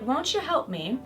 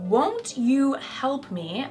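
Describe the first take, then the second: First: The t and y blend into ch. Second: The t and y sounds stay separate. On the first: The speaker calls it right. "I would say" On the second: The speaker calls it wrong. "I wouldn't say"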